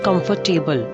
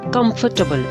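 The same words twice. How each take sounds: First: The ending is pronounced as a full 'table'. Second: The ending is reduced, without a full 'table'. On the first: The speaker calls it wrong. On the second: The speaker calls it right.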